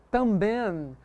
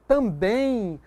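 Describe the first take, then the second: First: "também" ending in a sounded N, drawn out; wrong final N. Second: "também" slowly, ending in a nasal I glide; natural I glide. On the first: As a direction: close "também" on an N, no I glide. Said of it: "você não pronuncia". ("também" com N final, pronúncia errada) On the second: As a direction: let "também" end like "tambein", no hard N. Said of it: "o M tem som de I". ("também" com som de I no final) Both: Shown as a demonstration.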